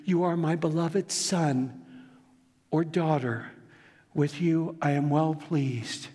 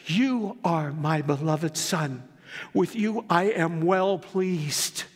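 First: Slow, gentle "You are my beloved son" spoken to each listener; tender blessing. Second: Voice of God. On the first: Pastor passing the Father's blessing to the congregation, tender. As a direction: give it to them personally, slowly. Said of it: "he means it for you". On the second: Voice from heaven quoted. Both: Acted.

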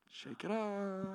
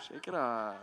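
First: Lilting higher shake it off; brushing off the kid's jab with a high lilt; high sing-song. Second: Put-on brushing off the kid's jab, chuckling; laughing it off. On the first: Retold or imitated. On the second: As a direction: shake it off through a laugh. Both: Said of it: "And I'm like".

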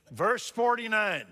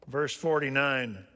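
First: High, loud verse call; preaching loud. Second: Said in the usual way. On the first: Shown as a demonstration. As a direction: announce the verse at full force.

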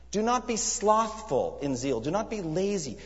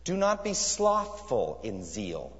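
First: Fervent charge. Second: Slow literal reading. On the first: Acted. Preacher charging his hearers not to be lazy, fervently. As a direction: preach it as a command, slow and raised. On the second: Shown as a demonstration. Preacher slowly reading the literal translation to the church. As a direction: read the verse slowly, measured. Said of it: "A literalistic translation here is".

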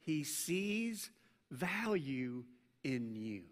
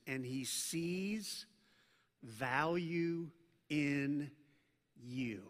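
First: He sees value in you, spaced out and soft; slow emphasis. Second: Sees and value drawn out slow and soft; slow emphasis. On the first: Pastor repeating to church: quiet spaced emphasis. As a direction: lay each word down gently. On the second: Pastor stressing to church: slow, soft, weighty emphasis. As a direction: dwell on every word, sees value in you. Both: Shown as a demonstration. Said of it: "I wanna emphasize this".

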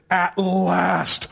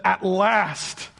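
First: Exultant mock shout, drawn out; exclaiming. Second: Said in the usual way. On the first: Preacher acting out Adam's reaction to Eve, exclaiming. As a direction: shout it like long-awaited joy. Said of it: "That's what he did". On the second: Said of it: "the man exclaimed".

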